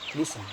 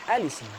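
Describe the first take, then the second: First: The word starts directly with an L sound. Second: The word starts with a vowel before the L. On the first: "memulai membaca dari lam yang dikasroh" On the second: "memulai membaca dari hamzah wasol al"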